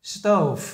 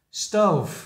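First: Stove said slowly with the final v held clearly; teacher models the ending of Stove; final sound. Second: Stove with a clear final v; final sound. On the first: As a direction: land firmly on the v at the end of Stove. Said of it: "để ý những âm cuối cho thầy". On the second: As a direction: say Stove ending crisply on the v. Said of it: "Các bạn nhớ những âm cuối nha". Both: Shown as a demonstration.

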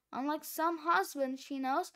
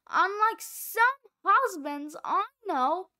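First: Said in the usual way. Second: A loud, pointed dig at her own husband; pointed emphasis. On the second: Real, not acted. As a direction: lean hard on "unlike some husbands".

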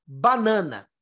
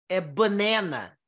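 First: Banana with open Portuguese a sounds. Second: Banana with the middle a as "eh", bɐnɛnɐ; English banana. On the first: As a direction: say banana the Brazilian way, all nasal a. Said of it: "Pra falar isso aqui em português". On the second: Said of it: "Em inglês, a palavra banana". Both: Shown as a demonstration.

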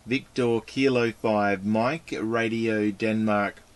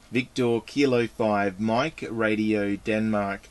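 The two takes are said the same way.

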